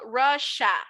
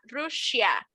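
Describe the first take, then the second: First: The ending is a short 'sha' with no extra vowel. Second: The ending has an extra 'ee' vowel: 'shee-a'. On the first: The speaker calls it right. "digo Russia, como si no tuviera la I" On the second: The speaker calls it wrong. "no digo Russia"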